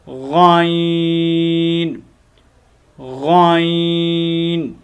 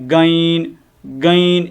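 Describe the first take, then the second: First: It starts with a heavy guttural gh sound. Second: It starts with a plain hard g sound. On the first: The speaker calls it right. "गाइन मोटा करके पढ़ना है" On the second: The speaker calls it wrong. "पढ़ते हैं गाइन गाइन, ये मिस्टेक नहीं करनी"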